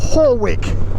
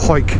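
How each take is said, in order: First: The name is said as two syllables. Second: The name is said as one short syllable. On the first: This is how southern English people say it. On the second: This is how the locals say it.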